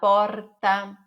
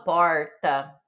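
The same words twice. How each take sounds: First: The R is a light tap. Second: The R is curled back, country-style. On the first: The speaker calls it right. "com aquele sotaque de São Paulo" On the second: The speaker calls it wrong. "fala caipira, igual eu falo"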